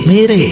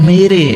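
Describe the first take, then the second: No difference in how they are said.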